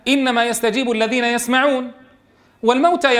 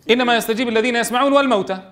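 First: There is a pause after يسمعون. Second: There is no pause after يسمعون. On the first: The dead are a separate subject of what follows. The speaker calls it right. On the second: The dead are also among those who respond. The speaker calls it wrong.

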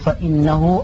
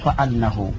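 First: The vowel after the glottal stop is i. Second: The vowel after the glottal stop is a. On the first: It starts a new clause giving a reason. "ويجوز الأمران أي فتح الهمزة من إنا والكسر" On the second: It stands in place of a verbal noun. "ويجوز الأمران أي فتح الهمزة من إنا والكسر"

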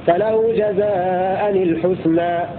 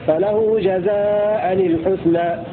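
No difference in how they are said.

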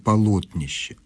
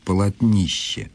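First: The stress is not on the third syllable. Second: The stress is on the third syllable. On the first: The speaker calls it right. "правильное ударение" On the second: The speaker calls it wrong. "с ударением на третьем слоге"

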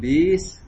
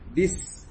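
First: The vowel is drawn out long. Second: The vowel is kept short. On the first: The speaker calls it wrong. "jangan bis" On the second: The speaker calls it right. "tapi bis pendek"

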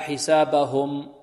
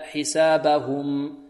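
First: The u vowel after the h is weak. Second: The u vowel after the h is clear. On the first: The speaker calls it wrong. "لا نقول" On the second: The speaker calls it right. "نحافظ على ضم الهاء"

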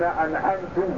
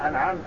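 First: The word ends with a 'tu' sound. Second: The word ends with a 'ta' sound. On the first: The speaker calls it wrong. "لو قال صراط الذين أنعمت ... هذا لا تصح معه الصلاة" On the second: The speaker calls it right. "بدلا من أن يقول أنعمت"

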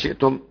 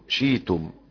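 First: The word has a glottal stop in the middle. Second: The glottal stop is replaced by a long vowel.

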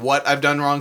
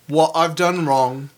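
First: It is said in a plain American accent. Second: It is said with a slight British accent. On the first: "instead of saying what I've done wrong" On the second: "it's like a little what I've done wrong"

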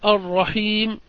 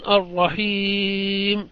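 First: The vowel before the final m is short. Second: The vowel before the final m is held moderately long. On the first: "القصر الرحيم" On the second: "التوسط يكون الرحيم"

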